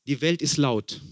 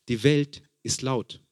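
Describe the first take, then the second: First: Said in the usual way. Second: Slowed down, every word weighed; slow emphatic repeat. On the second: Shown as a demonstration. Preacher repeats it slowly to the congregation.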